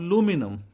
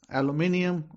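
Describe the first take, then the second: First: It is said the American way, four syllables. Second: It is said the British way, five syllables. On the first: "Americans call it aluminum" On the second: "I call it aluminium, British accent"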